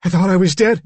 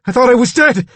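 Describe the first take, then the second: First: High, loud but less explosive; anxious, raised character voice; frightened Billy. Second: High, loud cry of disbelief; shocked, high-pitched shouting; panicked cry. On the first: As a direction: explain it like a bewildered boy. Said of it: "he said". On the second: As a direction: blurt it out in terror. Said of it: "he cried". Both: A narrator's reading.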